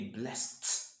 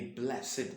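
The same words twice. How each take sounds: First: The ending is a plain t sound. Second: The ending is not a plain t sound. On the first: It is used as a past-tense verb. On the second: It is used as an adjective.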